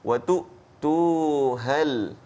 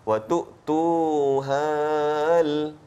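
First: The vowel before the l is kept short. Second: The vowel before the l is drawn out long. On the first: The speaker calls it right. "Kita pendekkan dia" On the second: The speaker calls it wrong. "yang salah ... itu terlebih"

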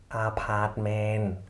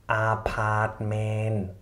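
No difference in how they are said.

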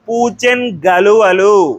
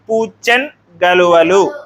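First: The n joins straight onto the next word. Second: The first word ends in a half nasal. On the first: "సంశ్లేష రూపం" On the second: "అరసున్న వచ్చినప్పుడు అన్ అనేటువంటి శబ్దం వస్తుంది"

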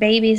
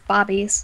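First: The first vowel sounds like 'bay'. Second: The first vowel sounds like 'bah'. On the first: "instead of saying babies" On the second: "it's bobbies. Like, bah"

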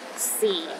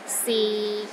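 First: The pitch sits at the lowest point. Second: The pitch is low and steady throughout. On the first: "The fourth tone is the lowest tone" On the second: "the sixth tone is low and steady"

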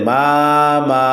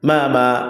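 First: The vowels are drawn out slowly. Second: The vowels are short and quick. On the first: The speaker calls it wrong. "এখন থেকে কেউ বলে মামা, হবে না" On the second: The speaker calls it right. "হরকতের উচ্চারণ তাড়াতাড়ি পড়তে হয়... এইভাবে বলতে হবে"

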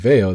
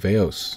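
First: The name ends without an S sound. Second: The name ends with an S sound. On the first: "So instead of Veo" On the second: "people kept on making an S sound at the end of the word"

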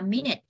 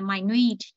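First: The stress is on the first syllable. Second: The stress is on the second syllable. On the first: It is the noun meaning a unit of time. "Nếu đây là danh từ chúng ta sẽ đọc là minute" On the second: It is the adjective meaning very tiny. "tính từ nhỏ bé tí siêu tí ti đó chúng ta đọc là minute thì nó sẽ nhấn vần 2"

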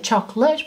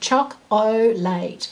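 First: The word is said with two syllables. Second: The word is said with three syllables. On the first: "some of which we drop a syllable out when we're saying them often" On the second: "but you've got to know"

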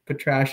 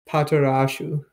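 First: The name is said with two clipped syllables. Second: The name is said with four full syllables. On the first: This is the shortened form the group uses. "Patrash it is" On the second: This is the original Japanese pronunciation. "I found the Romanji for how it's pronounced"

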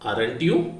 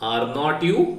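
First: The negative is contracted into one short syllable. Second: The negative is said as two full words.

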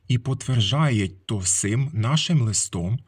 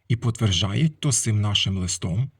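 First: The phrase is read at a slower pace. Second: The phrase is read at a quicker pace.

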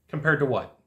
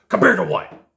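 First: It is said in a curious tone. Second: It is said in an aggressive tone.

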